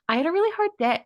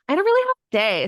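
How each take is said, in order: First: It is said in the speaker's ordinary voice. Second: It is said in a put-on Valley Girl voice.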